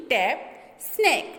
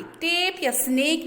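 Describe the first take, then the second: First: "टैप, स्नैक" with a short, open a; short A sound. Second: "टेप या स्नेक" with a long ay; long A sound. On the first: Teacher corrects to short A, open vowel in "टैप, स्नैक". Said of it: "ए के name की sound नहीं आ रही". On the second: Teacher contrasts for students, long ay in "टेप या स्नेक". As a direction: stretch the ay in "टेप या स्नेक", higher pitched. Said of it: "ए के name की sound". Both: Shown as a demonstration.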